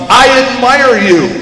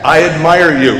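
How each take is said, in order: First: Slow, higher, drawn-out call; storyteller's scream. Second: Mild echoed call, falling away; echo coming back. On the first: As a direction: call it out to the mountains. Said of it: "he screams to the mountains". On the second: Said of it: "Coming back". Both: A narrator's reading.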